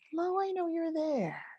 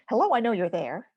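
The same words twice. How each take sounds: First: It is said in a warm, kind tone. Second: It is said in a cold, harsh tone. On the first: The feeling is met with total acceptance. The speaker calls it right. "a kind, compassionate, spacious, accepting awareness" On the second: The feeling is met without acceptance. The speaker calls it wrong. "It's not"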